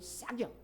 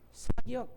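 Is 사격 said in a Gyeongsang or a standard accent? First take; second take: Gyeongsang; standard. First: It is said in a Gyeongsang dialect accent. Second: It is said in a standard Korean accent. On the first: "경상도 사람은 사격" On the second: "다른 사람들은 사격"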